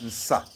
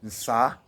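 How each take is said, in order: First: The final vowel is short and clipped. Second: The final vowel is drawn out long. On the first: The speaker calls it wrong. "on ne dit pas ça" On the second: The speaker calls it right. "On tire sur le A. ... Mais on dit ça"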